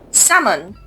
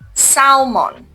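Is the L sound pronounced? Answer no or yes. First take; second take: no; yes. First: The L is silent. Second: The L is pronounced. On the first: The speaker calls it right. "L is silent here" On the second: The speaker calls it wrong. "not salmon"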